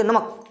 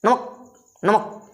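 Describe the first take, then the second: First: नमक said quickly in one breath; quick namak. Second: नमक said very slowly, each syllable stretched; drawn-out namak. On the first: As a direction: snap out नमक fast, no stretching. (नमक को झटके में जल्दी से बोलना) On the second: (नमक को धीरे-धीरे खींचकर बोलना) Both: Shown as a demonstration. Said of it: "जल्दी से बोलिए".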